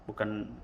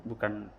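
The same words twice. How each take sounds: Both takes have the same delivery.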